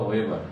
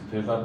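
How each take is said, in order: First: The name begins with a W sound. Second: The name begins with a V sound. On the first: The speaker calls it wrong. "আমরা অনেক সময় দেখি ওয়েবার লেখা" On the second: The speaker calls it right. "সেটা হবে ভেবার"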